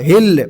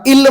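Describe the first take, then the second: First: The word starts with a clear h sound. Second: The word starts with a vowel, no h. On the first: The speaker calls it right. "एचचं pronunciation करा" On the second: The speaker calls it wrong. "इल म्हणायचं नाही याला"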